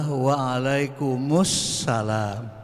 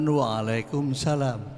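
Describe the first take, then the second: First: An article sound comes before 'salam'. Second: No article sound comes before 'salam'. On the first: The speaker calls it right. "Yang benar adalah waalaikumsalam, ... ada alnya" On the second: The speaker calls it wrong. "bukan waalaikumsalam"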